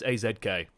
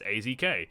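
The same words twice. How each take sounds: First: The letter Z is said the British way. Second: The letter Z is said the American way. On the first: The speaker calls it right. "no it's A Z K" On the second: The speaker calls it wrong. "people Americans say oh it's A Z K"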